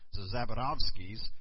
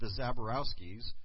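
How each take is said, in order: First: The name is said with a Polish pronunciation. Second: The name is said with an American pronunciation.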